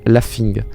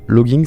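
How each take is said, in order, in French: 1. Le mot sonne comme 'laughing'. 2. Le mot sonne comme 'logging'. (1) "ça se dit laughing" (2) "logging, ça se dit laughing"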